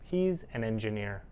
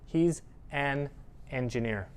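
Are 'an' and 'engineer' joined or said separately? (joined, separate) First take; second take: joined; separate. First: 'An' runs smoothly into 'engineer'. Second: 'An' and 'engineer' are said apart. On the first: The speaker calls it right. "a native speaker will usually squish that together" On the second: The speaker calls it wrong. "We don't talk like that"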